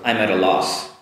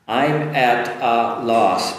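First: The words are linked together. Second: The words are said separately.

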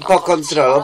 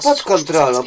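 First: The d at the end of pod is dropped. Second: The d at the end of pod is clearly pronounced. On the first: Someone else said it carelessly. The speaker calls it wrong. "Ona mówi po kontrolą" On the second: This is the careful way to say it. The speaker calls it right. "Z ładną dykcją"

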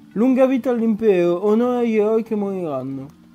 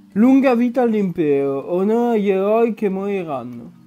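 No difference in how they are said.

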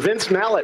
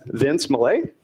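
First: The surname does not end with 'ay'. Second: The surname ends with an 'ay' sound. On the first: The speaker calls it right. "Or Vince Mallet. I'm sorry" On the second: The speaker calls it wrong. "I always want to say Mallet, like ballet"

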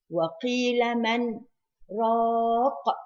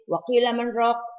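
First: A slight breathless pause comes after "man". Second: The phrase runs on without any break. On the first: The speaker calls it right. "you have to make the sakta, take a slight pause without breathing" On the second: The speaker calls it wrong. "you can't make it continuous. You can't say"

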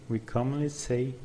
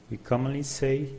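The two takes are said the same way.

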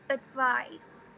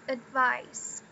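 Both takes have the same delivery.

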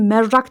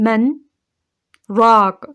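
First: The two words run together without a pause. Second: A short breathless pause separates the two words. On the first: The speaker calls it wrong. "merrak dersek bu çorbacı anlamına geliyormuş" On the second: The speaker calls it right. "Men diyorum. Nefes almadan bir süre bekliyorum"

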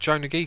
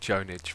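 First: The name ends in a separate 'Gee' syllable. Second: The name ends without a separate 'Gee' syllable. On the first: The speaker calls it wrong. "I know I pronounced that wrong" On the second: The speaker calls it right. "it's actually Jonage"

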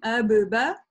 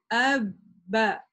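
First: The first b pops open with a short vowel. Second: The lips stay closed through a held b. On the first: The speaker calls it wrong. "Мы не говорим абыба" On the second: The speaker calls it right. "а говорим абба"

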